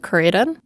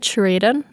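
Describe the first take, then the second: First: The name begins with a hard k sound. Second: The name begins with a ch sound. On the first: This is how the podcast said it. "in the podcast we said Curaden" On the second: This is how the show said it. "Did they say Churaden in the in the show?"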